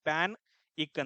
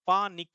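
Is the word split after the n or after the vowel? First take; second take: after n; after vowel. First: The word is split right after the n sound. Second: The word is split right after the first vowel. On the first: The speaker calls it right. "ಇಲ್ಲಿ divide ಮಾಡ್ಬೇಕು" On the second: The speaker calls it wrong. "Pronunciation wrong ಆಯ್ತು"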